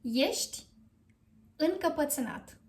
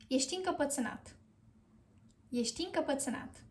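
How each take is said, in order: First: Ești, pause, then încăpățânat; Ești as yesht, set apart from încăpățânat; careful model phrase. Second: Ești încăpățânat run together quickly; joined-up model phrase. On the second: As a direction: link Ești into încăpățânat, no pause. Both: Shown as a demonstration. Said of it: "you are going to say".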